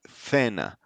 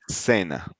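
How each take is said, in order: First: The c is said like 'th' in thin. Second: The c is said like a plain 's'. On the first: This is how it is said in Spain. "if you are in Spain, yeah, like it will sound like cena" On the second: This is how it is said in the Americas. "we pronounce it as an S"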